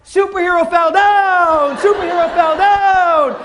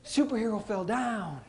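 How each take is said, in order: First: Put-on kid's loud announcement. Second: Calm matter-of-fact. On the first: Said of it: "three seconds later". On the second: Retold or imitated. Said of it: "He picked himself up".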